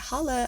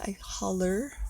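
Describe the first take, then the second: First: The word ends without an r sound. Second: The word ends with a clear r sound. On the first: It sounds like casual street slang. "I don't say holla" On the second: "I enunciate like anything"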